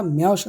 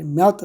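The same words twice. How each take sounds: First: মেয়স said with a final s sound, "meyos"; pronunciation variant. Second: মেয়ত said with a final t sound, "meyot"; pronunciation variant. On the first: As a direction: say মেয়স ending on a soft s. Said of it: "উচ্চারণটা মেয়স হতে পারে". (মেয়স শেষে স-ধ্বনি দিয়ে উচ্চারণ) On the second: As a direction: say মেয়ত ending on a light t. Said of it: "মেয়ত হতে পারে". (মেয়ত শেষে ত-ধ্বনি দিয়ে উচ্চারণ) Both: Shown as a demonstration.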